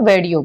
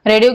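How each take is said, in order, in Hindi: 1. शब्द की शुरुआत w ध्वनि से होती है। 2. शब्द की शुरुआत r ध्वनि से होती है। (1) "वेडियो बोलेगा" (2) "आर की जगह पर डब्ल्यू बोलेगा"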